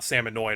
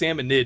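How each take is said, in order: First: The word ends with an 'oid' sound. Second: The word ends with an 'id' sound. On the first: The speaker calls it wrong. "not Salmonoid" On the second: The speaker calls it right. "It's Salmonid"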